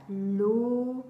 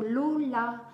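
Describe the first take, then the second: First: "Lola" broken into two long syllables, louder; split into syllables. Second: Said in the usual way. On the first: Shown as a demonstration. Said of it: "À combien de syllabes?". (« Lola » découpé en deux syllabes bien allongées) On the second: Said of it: "on peut écrire".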